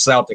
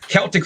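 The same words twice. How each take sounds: First: The word begins with a soft S sound. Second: The word begins with a hard K sound. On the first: The speaker calls it wrong. "they're saying it's" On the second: The speaker calls it right. "is the right way of saying it"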